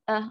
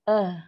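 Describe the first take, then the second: First: The sound is said with no escaping breath. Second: The sound is said with plenty of escaping breath. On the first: The speaker calls it wrong. "Kalau tak sempurna, kalau kita layan sifat wafat ni" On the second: The speaker calls it right. "sempurnakan sifat hams dan rokhawah dia akan bunyi"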